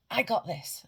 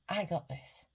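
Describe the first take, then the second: First: Loud falling shout of I got this; loud affirmation. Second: Said in the usual way. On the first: Shown as a demonstration. Coach showing viewers the confidence shout, loud. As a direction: shout it proudly, head raised. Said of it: "as loud as you can". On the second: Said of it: "and shout".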